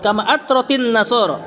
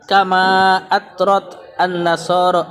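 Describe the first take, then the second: First: An 'i' vowel links the two words together. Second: The words are read separately, without a linking vowel. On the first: The speaker calls it right. "sukun ketemu sukun jadi kasroh" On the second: The speaker calls it wrong. "Sukun ketemu sukun gimana cara bacanya?"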